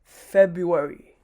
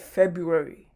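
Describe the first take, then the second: First: The first R sound is left out. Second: The first R sound is left out.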